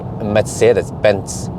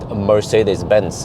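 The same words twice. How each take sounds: First: The consonants are hard, in a German style. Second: The consonants are soft, in an English style. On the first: The speaker calls it right. "the German way of saying it, you you have to just make everything really hard" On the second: The speaker calls it wrong. "people call it"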